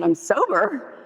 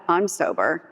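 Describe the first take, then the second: First: High, rising acted declaration; proud announcement. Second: Imitated husband shrugging it off; unimpressed reply. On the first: Wife tells estranged husband her news, high and rising. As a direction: announce it brightly as a retold revelation. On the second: Estranged husband answers wife, unimpressed and matter-of-fact. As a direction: toss it back lightly, no lift in pitch.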